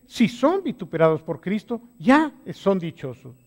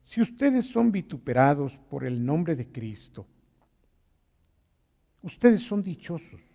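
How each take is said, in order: First: Louder, pressing each word home; emphatic repeat. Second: Said in the usual way. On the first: Shown as a demonstration. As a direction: hammer the promise the second time. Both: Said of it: "Vuelvo a repetirlo".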